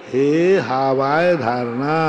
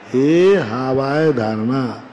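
No difference in how they are said.

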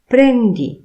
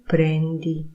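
First: It is said with a commanding intonation. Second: It is said with a plain statement intonation. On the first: Take it. "intonacja oraz kontekst powoduje, że jest to tryb rozkazujący" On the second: You are taking something. "ty bierzesz"

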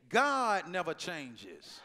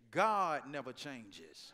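First: It is said loudly with raised voice. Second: It is said at a normal, quieter level.

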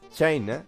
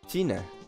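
First: It is pronounced with English sounds. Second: It is pronounced with Spanish sounds. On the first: "The pronunciation in English is China" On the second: "in Spain we say China"

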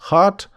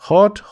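First: It is said with an American accent. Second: It is said with a British accent. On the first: "а американці скажуть" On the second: "британці кажуть hot, hotter, the hottest. Це британська вимова"

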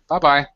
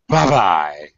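First: It is said in a plain, friendly tone. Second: It is said in a dismissive, go-away tone. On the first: It is a normal informal goodbye. "It's an informal goodbye" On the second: The listener is being told to go away. "notice my intonation as I say it like that"

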